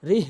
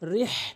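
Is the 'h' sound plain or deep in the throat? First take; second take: plain; throaty. First: The 'h' is a plain, light h sound. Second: The 'h' comes from the middle of the throat. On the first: The speaker calls it wrong. "এটি ভুল উচ্চারণ" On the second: The speaker calls it right. "সঠিক উচ্চারণ বড় হা হলকের মাঝখান থেকে উচ্চারণ করতে হয়"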